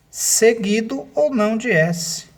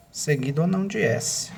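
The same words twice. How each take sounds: First: Seguido ou não de S said slowly and high, ou hit hard; stressed rule. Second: Said in the usual way. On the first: Shown as a demonstration. Teacher to class, seguido ou não de S slowly emphasized. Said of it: "teacher stresses rule phrase". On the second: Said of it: "teacher repeats rule phrase".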